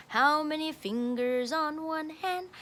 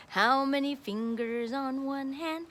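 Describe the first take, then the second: No difference in how they are said.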